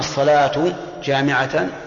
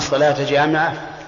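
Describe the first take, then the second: First: The words end in -u and -an. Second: The words end in -a and -an. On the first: This is the prayer, gathering people. "فالصلاة خبر مبتدأ محذوف... لكن هذا الوجه هو أضعفها" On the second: Attend the prayer while it gathers people. "فالصلاة مفعول لفعل محذوف، وجامعة حال"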